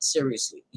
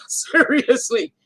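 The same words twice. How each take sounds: First: Said in the usual way. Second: SERIOUSLY stretched out slowly, high and loud; laugh, then draw out SERIOUSLY at a raised pitch; SERIOUSLY dragged long and louder for comic insistence; emphatic repeat. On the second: Real, not acted.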